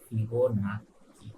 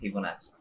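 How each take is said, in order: First: The double c is said as k. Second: The double c is said as ch. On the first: The speaker calls it wrong. "স্পেলিংটা হচ্ছে ফিবোনাক্কি" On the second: The speaker calls it right. "কিন্তু আসলে এটার pronunciation হচ্ছে ফিবোনাচি"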